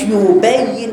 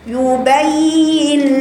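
First: The doubled ya and kasra are weak and unclear. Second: The doubled ya and kasra are clear and full. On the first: The speaker calls it wrong. "ما تقوليش يبين" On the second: The speaker calls it right. "لا، يبين لنا"

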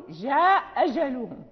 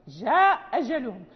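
No difference in how they are said.

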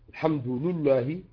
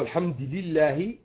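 First: Both linked vowels are pronounced as u. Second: Both linked vowels are pronounced as i. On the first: "أتبعت اللام للدال" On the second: "أتبعت الدال اللام"

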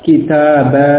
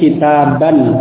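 First: The word ends with a long 'a' sound. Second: The word ends with an 'an' sound. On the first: The word comes where the reader stops. "maka yang dibaca adalah alifnya" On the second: This is the word's original form. "asalnya kitaban"

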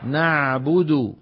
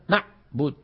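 First: The ain sound flows on partially, not cut off. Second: The ain sound is stopped abruptly, cut off. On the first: The speaker calls it right. "لا ينبتر صوت العين" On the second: The speaker calls it wrong. "شو عم يعاملها؟ معاملة الحرف الشديد"

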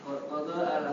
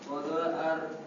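The two takes are said the same way.

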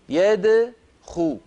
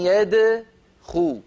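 First: The d sound is unrounded with a bouncing release. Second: The d sound is unrounded with a bouncing release.

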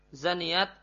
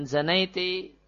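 First: The final t carries no following vowel. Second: The final t is followed by an i vowel. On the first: It is reported as a statement about her. "boleh juga taknya disukun" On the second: It is said directly to the person. "boleh taknya dikasrah"

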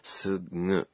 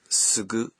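First: The g is a soft nasal sound. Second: The g is a hard voiced stop. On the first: The speaker calls it right. "or is it a voiced nasal, sugu?" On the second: The speaker calls it wrong. "a voiced consonant, like sugu"

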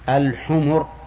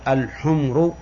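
First: The m is followed by a short vowel. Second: The m has no vowel after it. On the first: It means donkeys. The speaker calls it right. "يجب أن تقول الحمر" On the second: It means red ones. The speaker calls it wrong. "لا يصح أن تنطق بها بسكون الميم"

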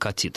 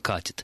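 First: The stress is on the last syllable. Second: The stress is on the first syllable. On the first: This is an older form no longer used today. "Мы сейчас не говорим «катит»" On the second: This is the form used today. "говорим «катит»"

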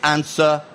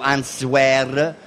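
First: The final R is not pronounced. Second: The final R is clearly pronounced. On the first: The speaker calls it right. "se è l'ultima lettera non c'è" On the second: The speaker calls it wrong. "quindi non è waiter o answer"

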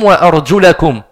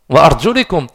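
First: The vowel after arjul is a. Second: The vowel after arjul is i. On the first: The feet are not wiped. The speaker calls it right. "C'est une fatha. Donc, il faut la lire bil fatha" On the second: The feet are wiped like the head. The speaker calls it wrong. "qui met une kasra, il s'est trompé"

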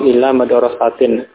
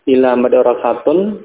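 First: The last word ends with an 'in' sound. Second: The last word ends with an 'un' sound. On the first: The word is in the genitive case after the preposition. "boleh dibaca majrur karena didahului oleh ila" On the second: The word is kept in its base form. "madrasatun sebagai asal kata"

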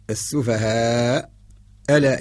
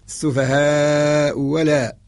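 First: The second word begins with a glottal stop. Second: The second word begins with a w sound. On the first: This is the original form with the hamza. "الأصل" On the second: The hamza is replaced by waw in this reading. "إبدالها بالواو"

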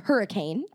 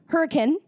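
First: It is said like the ordinary English word. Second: It is said with the local town pronunciation. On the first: "spelled like the word hurricane" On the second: "but they say it hurricane"

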